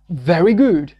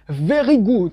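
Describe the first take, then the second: First: The R is pronounced the English way. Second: The R is pronounced the French way. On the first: The speaker sounds natural in English. The speaker calls it right. "vous devez dire very" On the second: The speaker sounds like a French speaker. The speaker calls it wrong. "on saura que vous êtes d'un background francophone"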